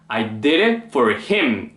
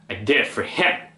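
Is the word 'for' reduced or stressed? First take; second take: stressed; reduced. First: The word 'for' is stressed and clear. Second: The word 'for' is unstressed and barely heard. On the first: "우리는 보통 I did it for him 이렇게 소리를 내죠" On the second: "원어민들은 for에 강세를 넣지 않고요"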